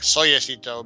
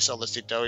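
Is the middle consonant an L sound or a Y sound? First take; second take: Y sound; L sound. First: The middle consonant sounds like a Y. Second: The middle consonant sounds like an L. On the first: This is how the name would be read in Spanish. "in Spanish, technically it's like like soyacito, but um, because because of the double L" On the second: This is the pronunciation chosen for use. "let's just say solicito"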